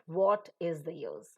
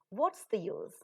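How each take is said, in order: First: The words 'what is' are said in full. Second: The words 'what is' are contracted to 'what's'. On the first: The speaker calls it wrong. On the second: The speaker calls it right.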